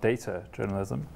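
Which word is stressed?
data. The stress falls on the first word. It is mainly about data rather than journalism. The speaker calls it wrong. "not data journalism"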